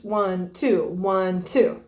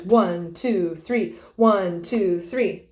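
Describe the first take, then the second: First: One, two with the accent on one; accent every beat and a half; counted in two. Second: One, two, three with the accent on one; accent every first beat of three; counted in three. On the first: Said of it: "have accents one, two, one, two". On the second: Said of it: "rhythms that have accents like this". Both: Shown as a demonstration.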